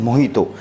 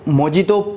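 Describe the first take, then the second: First: The middle consonant is an 'h' sound. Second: The middle consonant is a 'j' sound. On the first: The speaker calls it right. "जे जो होता है वो H pronunciation होता है, इसलिए इसको हम पुकारते हैं मोहितो" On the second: The speaker calls it wrong. "बहुत से लोग इसको मोजितो प्रोनाउंसिएशन करते हैं"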